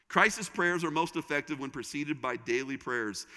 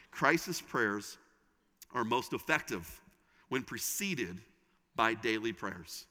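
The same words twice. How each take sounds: First: Said in the usual way. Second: "Crisis prayers" drawn out, pauses between phrases; slow, measured statement. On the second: Shown as a demonstration. Preacher announcing first takeaway, slow and measured with pauses. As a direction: deliver it phrase by phrase, pausing after each.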